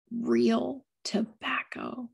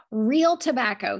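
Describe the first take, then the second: First: Breathy sigh of delight; sighed whisper. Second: Sighed. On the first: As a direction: whisper it reverently, savouring. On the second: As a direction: sigh it with reverence. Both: A narrator's reading. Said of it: "he sighed".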